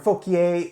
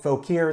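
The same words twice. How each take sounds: First: The name is said in a French-style way. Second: The name is said the local Virginia way.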